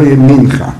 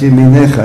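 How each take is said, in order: First: It is said without a vowel before the last syllable. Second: It is said with an e-vowel before the last syllable. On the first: The speaker calls it wrong. "לא ימינך" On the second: The speaker calls it right. "יש שם מנוקד, סגול"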